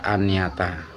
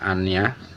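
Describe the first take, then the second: First: The word ends with a full 'ata' ending. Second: The word ends with a bare 'ah' sound. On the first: It is read as an object, for meaning. "ketika kita maknai kita baca aniyata" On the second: It is read as verse. "kalau kita nazamkan membacanya aniyah"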